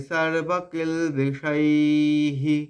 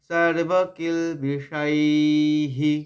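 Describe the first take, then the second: No difference in how they are said.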